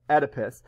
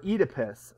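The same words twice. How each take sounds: First: The name is said with an American pronunciation. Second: The name is said with a British pronunciation. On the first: "but Oedipus" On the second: "if uh, you the person reading the text has a British accent"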